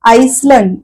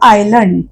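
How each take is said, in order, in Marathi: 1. L च्या आधी S चा आवाज उच्चारला जातो. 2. L च्या आधी S चा आवाज उच्चारला जात नाही. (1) "असं नाही" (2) "एस चा उच्चार करत नाही आपण म्हणतो"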